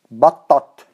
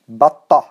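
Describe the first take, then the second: First: The word ends with a clear t sound. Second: The word ends with a soft h sound. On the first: "two times with ta" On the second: "I'm going to repeat it two times with ha"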